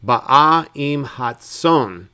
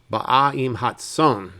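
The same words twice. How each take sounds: First: Slow "Ba'a" with a throaty guttural opening. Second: Said in the usual way. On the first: Shown as a demonstration. Teacher slips into a throaty "Ba'a" for the sheep verse. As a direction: drag out "Ba'a" with a throaty catch. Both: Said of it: "I keep wanting to make that guttural".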